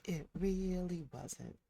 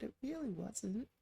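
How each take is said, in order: First: "really" drawn out, falling; flat, slow "really". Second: Really rising high and light; sing-song "really"; stress on really. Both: Shown as a demonstration.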